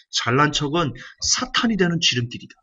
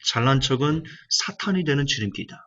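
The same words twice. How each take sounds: First: 사탄이 pressed hard, each word weighed; emphatic. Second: Said in the usual way. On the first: Shown as a demonstration. Preacher engraving the line on the congregation, emphatic. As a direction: drive 잘난 척은 사탄이 되는 지름길이다 home. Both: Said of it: "강조할게요".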